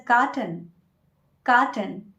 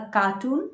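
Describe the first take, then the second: First: Carton as KAR-tən, short second syllable; correct pronunciation. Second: Carton said as cartoon, kar-TOON; cartoon with a long OO; wrong word. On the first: Teacher giving the correct word, carton as KAR-tən. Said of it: "It's a". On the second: Teacher showing the mix-up, carton as kar-TOON. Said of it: "it is not a cartoon". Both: Shown as a demonstration.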